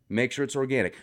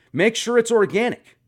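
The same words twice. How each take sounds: First: Said in the usual way. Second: "Make sure it's organic" said high, louder, rising on "it's"; high emphatic. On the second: Shown as a demonstration. Advising a viewer to relax, the high emphatic take.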